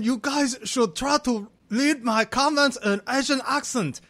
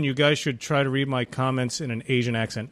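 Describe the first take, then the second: First: It is read in a put-on imitated accent. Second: It is read in the speaker's ordinary accent.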